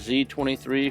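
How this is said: The letter Z is said the American way.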